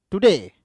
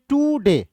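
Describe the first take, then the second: First: "today" as one word, short टु, falling stressed डे; stress on DAY. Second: "टू डे" as two words, long high टू; wrongly stressed TOO. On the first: Teacher gives students the correct reading, weight on डे in "today". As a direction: clip टु in "today" and land on डे. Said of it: "तो नहीं पढ़ना". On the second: Teacher shows students how not to read it, heavy टू in "टू डे". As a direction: stretch and stress टू in "टू डे", high pitched. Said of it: "ऐसे तो पढ़ते नहीं". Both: Shown as a demonstration.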